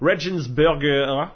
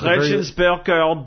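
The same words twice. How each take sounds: First: The word is said in a plain accent. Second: The word is said in an exaggerated German accent. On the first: "I'm going to butcher it here" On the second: "try and say it with a funny German accent"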